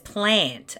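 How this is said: It is said the general Australian way. The speaker calls it wrong. "Where everyone else says plant and it sounds stupid"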